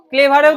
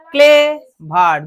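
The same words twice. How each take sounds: First: Said in the usual way. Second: clever in two separate beats, clay then ভার; clever loud and drawn out as two syllables; split into syllables. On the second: Shown as a demonstration. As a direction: break clever slowly with a gap after clay. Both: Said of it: "দুটো হয়ে যাচ্ছে".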